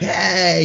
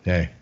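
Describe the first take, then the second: First: It is said in a lively, upbeat way. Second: It is said quietly and flatly.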